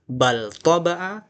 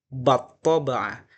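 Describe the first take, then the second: First: The L is pronounced clearly before the next consonant. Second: The L merges into a doubled following consonant. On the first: "versi idhar" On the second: "kemudian idgham"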